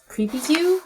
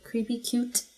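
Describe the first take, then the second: First: The second word ends without a t sound. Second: The second word ends with a clear t sound. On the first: The speaker calls it wrong. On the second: The speaker calls it right.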